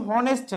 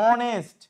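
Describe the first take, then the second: First: হনেস্ট with a sounded h at the start, the wrong way; wrong pronunciation with H. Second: অনেস্ট with a silent h, opening straight on the vowel; right pronunciation, silent H. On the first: Teacher showing students the wrong way, sounded h. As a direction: say হনেস্ট, breathing out a clear h first. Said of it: "এটা কিন্তু হনেস্ট না". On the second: Teacher showing students the right way, silent h. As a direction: say অনেস্ট, no h sound at all. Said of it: "এটা হচ্ছে অনেস্ট". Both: Shown as a demonstration.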